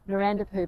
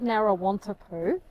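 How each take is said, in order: First: The name is shortened to four syllables. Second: The name is said with five full syllables. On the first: It is how the locals say it. The speaker calls it right. "the locals corrected our pronunciation ... said it's Narandapoo" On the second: It follows the spelling. The speaker calls it wrong. "it's spelt Narrawantapoo"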